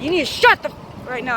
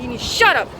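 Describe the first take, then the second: First: Cut-off curse, lightly sharp; angry retort. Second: Said in the usual way. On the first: Retold or imitated. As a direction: start to swear, then bite off the f-. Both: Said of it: "that's exactly how I said it".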